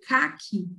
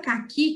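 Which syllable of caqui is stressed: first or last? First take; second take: first; last. First: The stress is on the first syllable. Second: The stress is on the last syllable. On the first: It names the color. "a cor, quando eu coloco um acento. Então, eu tiro a força do i" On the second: It names the fruit. "que é a fruta"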